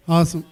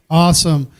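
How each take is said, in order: First: "Awesome" called out again, a little less loud; loud awesome repeat. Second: A big, loud, falling "Awesome". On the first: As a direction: echo your own "Awesome", slightly lower in volume. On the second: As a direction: shout the "Awesome" out to the room. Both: Real, not acted. Host calls out praise.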